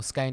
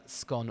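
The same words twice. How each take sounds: First: "scone" rhyming with cone; long-vowel scone. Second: "scone" rhyming with gone; short-vowel scone. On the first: Host giving the other way to say it, "scone" rhyming with cone. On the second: Host giving one way to say it, "scone" rhyming with gone. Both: Shown as a demonstration. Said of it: "depending how you say it".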